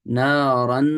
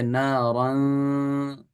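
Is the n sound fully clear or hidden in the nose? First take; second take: clear; hidden. First: The n is pronounced clearly with nasal sound. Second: The n is hidden, leaving only nasal sound. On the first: The speaker calls it wrong. "अगर मैं इसके अंदर नून को ज़ाहिर भी करूँ और गुन्ना भी करूँ ... ये सही नहीं है" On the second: The speaker calls it right. "बल्कि नारन, ऐसे करके पढ़ा जाएगा"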